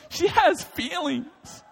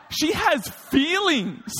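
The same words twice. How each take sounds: First: "has" drawn out high and slow; slow mock-earnest repeat, stress on "has". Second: "has" stretched high and slow through a laugh; half-laughing at "she has feelings"; giggling version, stress on "has"; laughing scold. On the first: Shown as a demonstration. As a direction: lean slowly on "has" in "She has feelings". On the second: Retold or imitated.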